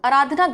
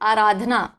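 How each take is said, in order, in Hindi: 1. पहला स्वर छोटा है। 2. पहला स्वर लंबा है। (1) "तो आराधना गलत है" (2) "साउंड आ रहा है बढ़िया का आराधना"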